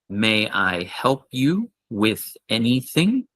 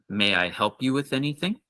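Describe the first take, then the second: First: It is said at a normal pace. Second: It is said a little faster.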